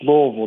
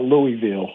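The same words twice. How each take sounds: First: The name is said the way locals say it. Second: The name is said the way outsiders say it. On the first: The speaker is from the city. The speaker calls it right. "If you're from here, it's Louisville" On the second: The speaker is not from the city. The speaker calls it wrong. "not Louisville"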